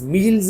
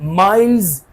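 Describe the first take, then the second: First: The vowel sounds like ee in meet. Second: The vowel sounds like eye in mile. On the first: The speaker calls it wrong. "मील्स नहीं" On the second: The speaker calls it right.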